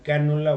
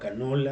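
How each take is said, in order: First: The stress is on the first syllable. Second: The stress is on the second syllable.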